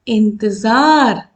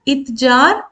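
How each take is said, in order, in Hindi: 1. पहले स्वर के बाद अनुनासिक ध्वनि आती है। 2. पहले स्वर के बाद कोई अनुनासिक ध्वनि नहीं है। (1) "जैसे ही ऊपर बिंदी लग गई तो ये हो गया इंतजार"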